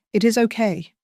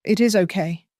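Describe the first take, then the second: First: "It is okay" higher, stress on "is", falling; soothing. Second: Soothing. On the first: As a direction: soothe her, pitch lifted on "is". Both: Acted. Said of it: "he soothed".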